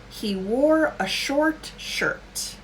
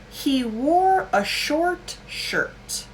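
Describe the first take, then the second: No difference in how they are said.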